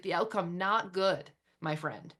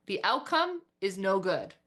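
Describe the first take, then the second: First: Friendly verdict. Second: Said in the usual way. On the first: Shown as a demonstration. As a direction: deliver the bad news kindly, like a pal. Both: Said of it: "This is how I would speak to it".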